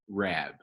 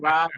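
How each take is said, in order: First: The vowel rhymes with scab and slab. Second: The vowel rhymes with rob and cob. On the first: The speaker calls it right. "slab, stab, scab, rab" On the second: The speaker calls it wrong. "I've been hearing Rob my whole life"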